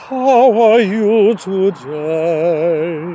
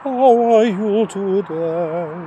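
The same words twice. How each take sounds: First: The voice is fuller, with more voice. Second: The voice is light, slipping in and out.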